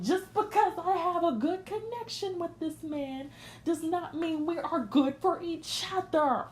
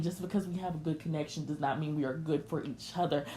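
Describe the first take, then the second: First: "Just because I have a good connection" proclaimed high and forcefully, every word punched; emphatic repeat. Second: Said in the usual way. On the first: Real, not acted. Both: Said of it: "Let me say that again".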